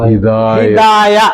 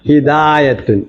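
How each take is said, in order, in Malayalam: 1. വാക്ക് ഒറ്റ 'a' ശബ്ദത്തിൽ അവസാനിക്കുന്നു. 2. വാക്ക് പൂർണ്ണ 'atun' ൽ അവസാനിക്കുന്നു.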